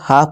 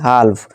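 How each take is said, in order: First: The L sound is left out of the word. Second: The L sound is pronounced in the word. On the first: The speaker calls it right. "इसे हाफ पढ़ेंगे" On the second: The speaker calls it wrong. "ना कि हाल्फ"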